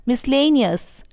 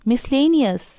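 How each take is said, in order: No difference in how they are said.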